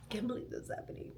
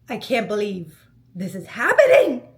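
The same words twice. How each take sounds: First: Breathless whisper, fast; whispered disbelief. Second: Laughing through the words, louder; giddy laughing disbelief. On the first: Echoing her own shock to her listeners, a fast whisper. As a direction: whisper it to yourself in awe. Repeating it to herself in awe. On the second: Retelling seeing the proposal setup, laughing in disbelief. Seeing the rose-covered rooftop. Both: Retold or imitated.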